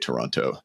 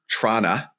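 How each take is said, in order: First: All three syllables are clearly pronounced. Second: The word is squeezed into two short syllables. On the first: This is how outsiders say it. "people that live in Toronto do not say Toronto" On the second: This is how locals say it. "when I lived there growing up, it was Trana"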